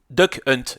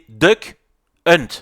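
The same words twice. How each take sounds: First: The name is said quickly and run together. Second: The name is said slowly and clearly.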